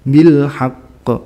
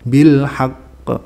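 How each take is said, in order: Both takes have the same delivery.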